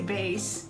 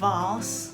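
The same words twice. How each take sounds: First: It is said with a Philippine pronunciation. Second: It is said with a British pronunciation. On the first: "in the Philippines we say" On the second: "when they say"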